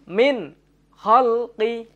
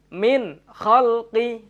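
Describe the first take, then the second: The two takes are said the same way.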